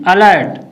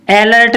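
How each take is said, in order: First: अलर्ट said uh-lert, with a neutral first vowel; short "a" opening. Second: अलर्ट mispronounced as ai-lert; wrong "ai" opening. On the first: (अलर्ट को छोटे "अ" से शुरू करें) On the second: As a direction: open अलर्ट with the vowel of "cat". (अलर्ट को "ऐलर्ट" बोलें) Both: Shown as a demonstration. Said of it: "अलर्ट नहीं".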